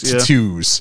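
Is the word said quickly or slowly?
quickly. The word is said quickly. This is how British people say it. "It says it's very quick"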